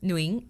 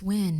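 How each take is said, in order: First: The name is said with Vietnamese pronunciation. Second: The name sounds like the English word win. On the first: This is how it is said in Vietnamese. "how do you guys say it in Vietnamese again?" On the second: This is how people out here say it. "slowly people are like, oh, it's Win"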